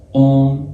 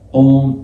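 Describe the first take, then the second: First: It is said with an o and half n. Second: The same.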